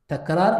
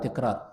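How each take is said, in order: First: The first syllable has the vowel 'a'. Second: The first syllable has the vowel 'i'. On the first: The speaker calls it right. "تقول تكرار" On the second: The speaker calls it wrong. "لا تقول تي في التفعال"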